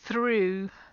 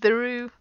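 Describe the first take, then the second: First: The th is unvoiced, with only air. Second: The th is voiced, with throat vibration. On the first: The speaker calls it right. "the unvoiced sound" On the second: The speaker calls it wrong. "that's the voice sound"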